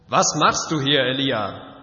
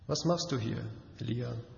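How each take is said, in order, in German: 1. Die Frage klingt vorwurfsvoll und anklagend. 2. Die Frage klingt sanft und verständnisvoll. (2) "ich habe versucht, die Frage sanft und auch ein wenig verständnisvoll klingen zu lassen"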